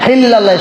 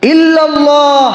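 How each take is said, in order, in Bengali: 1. শব্দটি একটি অতিরিক্ত h ধ্বনি যোগ করে শুরু হয়। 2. শব্দটি সরাসরি একটি স্বরধ্বনি দিয়ে শুরু হয়। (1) "আপনি বলতেছেন হিল্লাল্লাহ হিল্লাল্লাহ" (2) "ইল্লাল্লাহ আল্লাহ ছাড়া"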